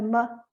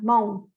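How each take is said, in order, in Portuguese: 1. A vogal é um som parecido com a, aberto e não arredondado. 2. A vogal é um som de o fechado e arredondado. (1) "não é mo, é ma" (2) "a gente ouve muito mo, fechado"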